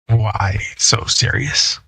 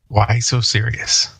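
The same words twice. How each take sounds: First: It is said slowly, like the Joker. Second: It is said at normal speed.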